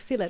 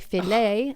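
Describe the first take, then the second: First: The word ends in an 'it' sound. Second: The word ends in an 'ay' sound. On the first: This is the local way of saying it. "and then we say fillet" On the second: This is the French way of saying it. "in France would be filet"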